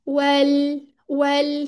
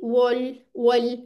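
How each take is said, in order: First: The vowel after w sounds unrounded, like 'wel'. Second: The vowel after w sounds rounded, like 'wol'. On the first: The speaker calls it right. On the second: The speaker calls it wrong.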